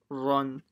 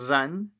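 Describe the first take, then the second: First: The syllable is said heavy, with a full-mouthed vowel. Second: The syllable is said light, with a thin vowel. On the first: The speaker calls it right. "full mouth" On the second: The speaker calls it wrong. "it's not ran"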